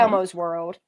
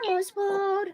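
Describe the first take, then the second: First: Said in the usual way. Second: Elmo's World in a much higher, squeaky puppet voice. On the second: Shown as a demonstration. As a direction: pop up into a high Elmo squeak. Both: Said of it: "we used to do Elmo".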